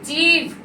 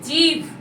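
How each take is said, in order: Both takes have the same delivery.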